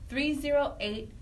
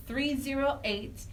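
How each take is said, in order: Both takes have the same delivery.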